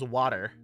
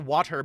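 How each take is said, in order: First: The middle consonant sounds like a soft d. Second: The middle consonant is a crisp t sound.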